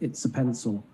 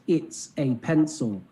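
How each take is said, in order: First: The words are linked together with natural stress. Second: Each word is said separately with unnatural stress. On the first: The speaker calls it right. "instead of it's a pencil" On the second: The speaker calls it wrong. "his pronunciation's totally off"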